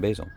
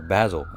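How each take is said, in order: First: It is said in the speaker's usual accent. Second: It is said imitating a British chef's accent.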